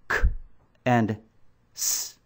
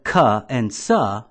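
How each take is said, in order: First: Each consonant sound is clipped with no vowel. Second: A short uh vowel follows each consonant sound. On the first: The speaker calls it right. "the letter C would sound like this" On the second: The speaker calls it wrong. "Instead of"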